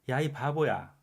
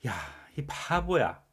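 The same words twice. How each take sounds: First: It is said in a fond, teasing tone. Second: It is said in an irritated, angry tone. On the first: The speaker is upset but still feels close. "나름 친근하게 부르는 의도죠" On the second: The speaker is truly annoyed and angry. "정말 짜증나고 화가 나서 말하는 거죠"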